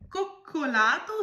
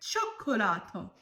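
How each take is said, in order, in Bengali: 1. শব্দটি কঠিন 'k' ধ্বনি দিয়ে শুরু হয়। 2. শব্দটি কোমল 'ch' ধ্বনি দিয়ে শুরু হয়। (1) "কোকোলাতো উচ্চারণ করলেন" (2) "এটা হবে চক্ষোলাতো।"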